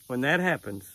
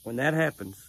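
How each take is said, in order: Both takes have the same delivery.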